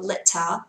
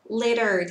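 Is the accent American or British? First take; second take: British; American. First: It is said with a British accent. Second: It is said with an American accent. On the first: "anh sẽ đọc là litter" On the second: "Litter theo Anh Mỹ"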